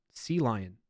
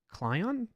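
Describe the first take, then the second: First: "Sea Lion." as two words, SEA stressed, falling; corrected pronunciation. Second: "Clion?" read as one word, pitched higher like a question; unsure pronunciation. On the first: Streamer settling how to say the editor's name. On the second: Streamer sounding out an unfamiliar editor name, higher. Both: Shown as a demonstration. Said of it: "let me know if I'm pronouncing that right".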